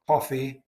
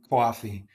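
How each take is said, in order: First: Coffee with rounded RP o; British coffee. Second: Coffee as kwaw-fee with a glide; New York City coffee. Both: Shown as a demonstration. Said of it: "The classic example is coffee".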